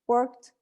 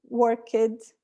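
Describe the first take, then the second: First: The ending is a plain t with no vowel. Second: The ending is an extra syllable with a vowel. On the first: The speaker calls it right. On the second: The speaker calls it wrong.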